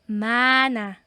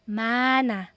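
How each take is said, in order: Both takes have the same delivery.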